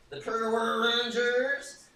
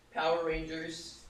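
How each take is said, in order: First: High, loud, drawn-out Power Rangers call; put-on Power Rangers voice. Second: Said in the usual way. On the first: Streamer imitating the Power Rangers call, high and drawn-out. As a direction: belt the name out high and stretched. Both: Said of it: "allowed to talk like that".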